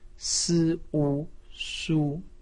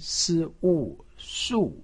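First: The pitch stays high and level. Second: The pitch falls sharply from high to low. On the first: "一声" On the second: "四声"

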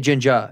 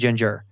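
First: The final R is soft or dropped. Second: The final R is hard and clearly pronounced. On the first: It is an acceptable, affectionate way to say it. The speaker calls it right. "you say ginger at most" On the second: It is not an acceptable way to say it. The speaker calls it wrong. "You better not say the hard R"

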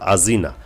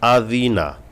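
First: The middle consonant sounds like a 'z'. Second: The middle consonant is a soft 'th'. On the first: The speaker calls it wrong. "আজি না বললে কিন্তু পুরা মাখরাজ থেকে ভিন্ন হবে, অর্থাৎ উচ্চারণ সহি হবে না।" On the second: The speaker calls it right. "জাল পাতলা হবে জিব্বার আগা দিয়ে"

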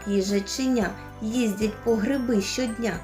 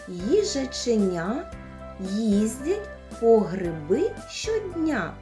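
First: The phrase is spoken very fast. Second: The phrase is spoken slowly. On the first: "А зможете ще швидше?" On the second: "Спочатку повільно"

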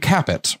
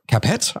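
First: The name is pronounced the English way. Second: The name is pronounced the French way.

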